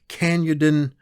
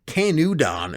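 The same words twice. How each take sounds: First: The name is said the British way. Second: The name is said the American way.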